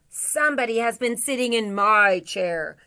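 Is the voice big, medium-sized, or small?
big. It is said in a big, deep voice. "in a great big voice"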